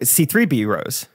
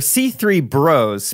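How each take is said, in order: First: The ending is said as B then rose. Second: The ending is said as one word, bros. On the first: The speaker calls it right. "That's right" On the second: The speaker calls it wrong. "I think I'm pronouncing wrong"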